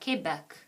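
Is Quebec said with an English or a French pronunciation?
French. It is said with a French pronunciation. "In French, the Q U is a K sound"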